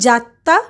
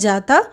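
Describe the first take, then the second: First: The middle consonant is doubled and held long. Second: The middle consonant is single and short. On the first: This is the Western Hindi form. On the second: This is the standard Hindi form.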